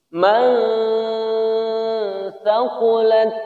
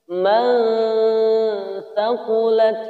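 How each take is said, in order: No difference in how they are said.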